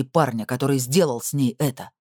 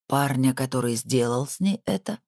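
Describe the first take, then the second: First: Determined statement, weight on "сделал"; insist, stressing "сделал"; insistent statement. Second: Incredulous echo, questioning "это". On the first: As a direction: press the point firmly on "сделал". Hardy's demand, then echoed back. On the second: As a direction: repeat it back as a question, landing on "ней это". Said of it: "повторил Томашевский". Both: A narrator's reading.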